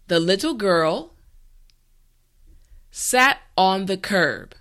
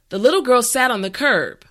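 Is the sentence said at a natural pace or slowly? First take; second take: slowly; natural pace. First: The sentence is said slowly and carefully. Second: The sentence is said at a natural speed. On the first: "this time repeat after me" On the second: "the last time at a regular pace"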